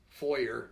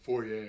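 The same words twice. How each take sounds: First: The word is pronounced the ordinary, plain way. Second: The word is pronounced a fancier, showier way.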